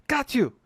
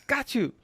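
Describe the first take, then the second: The two takes are said the same way.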